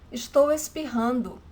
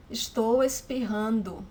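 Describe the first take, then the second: No difference in how they are said.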